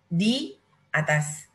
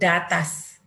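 First: The two vowels are said as separate syllables. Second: The two vowels merge into one syllable. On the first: The speaker calls it right. "Letak hamzah atas alif" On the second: The speaker calls it wrong. "jadi bunyi datas. Salah ya"

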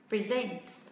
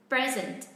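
First: The stress is on the second syllable. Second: The stress is on the first syllable. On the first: It is a verb. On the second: It is an adjective meaning current.

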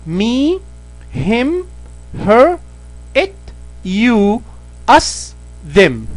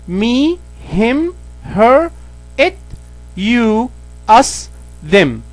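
The two takes are said the same way.

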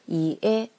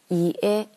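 Both takes have the same delivery.

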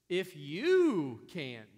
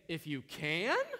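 First: It sounds plain and matter-of-fact. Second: It sounds incredulous and challenging.

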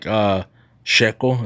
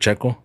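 First: The word begins with a soft sh sound. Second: The word begins with a hard ch sound. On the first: This is how people from one region say it. "they make it more like SH" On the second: This is the usual way to say it. "instead of Checo"

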